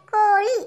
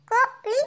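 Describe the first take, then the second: First: Said in the usual way. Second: கோழி split into two short separate syllables; letter by letter. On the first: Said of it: "உச்சரித்து வாசிங்க". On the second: Shown as a demonstration. Pupil reads aloud for the teacher, கோழி syllable by syllable. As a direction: sound out கோழி with a gap between syllables. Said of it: "ஒவ்வொரு எழுத்தா உச்சரித்து வாசிங்க".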